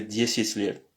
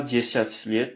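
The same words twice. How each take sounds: First: Dziesit said the proper Russian way, the "ya" softened; correct pronunciation. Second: Dziesiat said with a full "ya" vowel, as it is written; wrong pronunciation. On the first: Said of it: "mais dziesit liet". (dziesit prononcé avec un « i » mou, à la russe) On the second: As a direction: dziesiat pronounced letter by letter, the wrong way. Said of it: "On dit pas". (dziesiat prononcé tel qu'il s'écrit, avec « ya ») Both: Shown as a demonstration.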